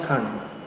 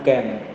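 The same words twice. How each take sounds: First: It is said with a British accent. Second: It is said with an American accent. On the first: "aksennya orang Inggris atau British English, dia pakainya can" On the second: "bukan can"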